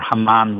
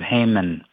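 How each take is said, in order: First: The name is pronounced the Hebrew way. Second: The name is pronounced the English way.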